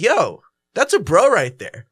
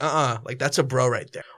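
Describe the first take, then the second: First: It is said with an approving tone. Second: It is said with a disapproving tone.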